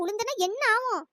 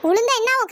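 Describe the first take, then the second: First: Said in the usual way. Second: Louder retort with என்ன hit hard; loud repeat. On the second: Acted. Woman retorts loudly to her friend's fearful question. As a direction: snap the question back, stressing என்ன.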